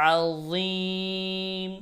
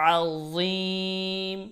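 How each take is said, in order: The two takes are said the same way.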